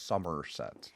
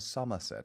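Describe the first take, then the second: First: The R after the vowel is pronounced. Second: The R after the vowel is silent. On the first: This is how the West Country says it. "They pronounce the R" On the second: This is how the rest of England says it. "It's not Somerset"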